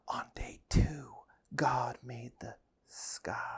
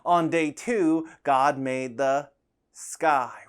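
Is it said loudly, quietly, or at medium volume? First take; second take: quietly; medium. First: It is said quietly. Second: It is said at medium volume.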